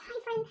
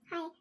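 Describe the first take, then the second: First: It is said with high, excited energy. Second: It is said with low, flat energy.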